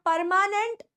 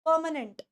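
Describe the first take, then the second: First: The r sound in the word is pronounced. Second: The r sound in the word is dropped. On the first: The speaker calls it wrong. "it is not permanent" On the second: The speaker calls it right. "अब वापस से र खा जाओ"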